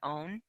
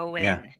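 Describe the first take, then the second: First: The name is said as one syllable. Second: The name is said as two syllables. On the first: The speaker calls it wrong. "I always pronounce it Own" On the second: The speaker calls it right. "but it's Owen"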